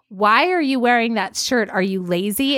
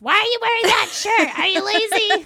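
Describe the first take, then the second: First: It is said in a plain, neutral way. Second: It is said in a scary, harsh way.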